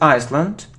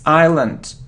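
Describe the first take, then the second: First: An S sound is heard in the middle. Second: No S sound is heard in the middle. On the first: The speaker calls it wrong. "It isn't Iceland" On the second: The speaker calls it right. "We don't pronounce the it's island"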